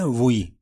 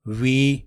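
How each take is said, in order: First: ووئی with a rounded w-glide into "ee"; the common wrong way, ووئی; wrong pronunciation. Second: وی said slowly as a clean "we"; correct pronunciation. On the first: Teacher mocking the wrong reading: ووئی. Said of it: "W E کو پڑھتے ہیں". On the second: Teacher modelling the right word: وی. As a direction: draw out وی as the English we. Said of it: "دونوں ہی اس کو". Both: Shown as a demonstration.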